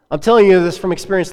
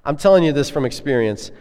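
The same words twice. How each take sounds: First: Louder, higher insistent I'm telling you this from experience; emphatic repeat. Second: Said in the usual way. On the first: Shown as a demonstration. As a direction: drive the point home with conviction. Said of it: "like, from this week". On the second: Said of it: "and not from experience from five years ago".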